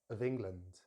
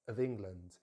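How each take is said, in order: The two takes are said the same way.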